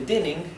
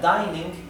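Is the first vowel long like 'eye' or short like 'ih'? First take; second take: short; long. First: The first vowel is short, like 'ih'. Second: The first vowel is long, like 'eye'. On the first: The speaker calls it wrong. "en vez de dinning" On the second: The speaker calls it right. "esto se pronuncia dining"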